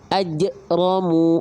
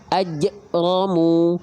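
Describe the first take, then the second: No difference in how they are said.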